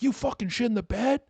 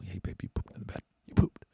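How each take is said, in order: First: It is said in an angry, accusing tone. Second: It is said in a soft, gentle tone.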